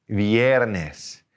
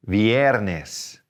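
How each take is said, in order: Both takes have the same delivery.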